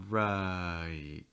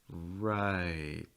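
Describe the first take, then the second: The two takes are said the same way.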